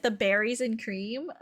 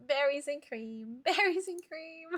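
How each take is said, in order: First: Said in the usual way. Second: Soft, giggly sing-song imitation; playful mimicry. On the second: Streamer mimicking a funny clip a viewer sent, playful and giggly. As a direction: mimic a silly catchphrase through laughter.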